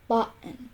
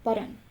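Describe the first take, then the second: First: "button" broken by a glottal stop before the final n. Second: Said in the usual way. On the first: Shown as a demonstration. Example of American English, "button" with a glottal T. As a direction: say "button" with a throat catch in place of T. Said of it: "pronounced with the glottal".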